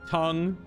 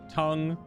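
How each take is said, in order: Both takes have the same delivery.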